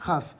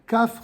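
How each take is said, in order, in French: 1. Il commence par un son kh râpeux. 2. Il commence par un son k dur. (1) "le chaf sans point" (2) "va se prononcer kaf avec un point"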